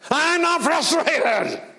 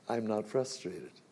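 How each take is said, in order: First: It is said in a frustrated, irritated tone. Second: It is said in a calm, untroubled tone.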